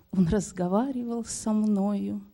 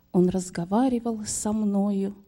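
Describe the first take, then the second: The two takes are said the same way.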